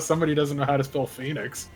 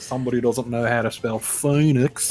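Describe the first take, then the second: First: It is said in the speaker's ordinary accent. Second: It is said in a put-on Australian accent.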